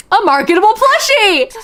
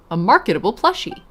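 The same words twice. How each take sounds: First: High, loud, thrilled "A marketable plushie!"; excited repeat. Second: Said in the usual way. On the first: Real, not acted. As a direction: shout it back with glee.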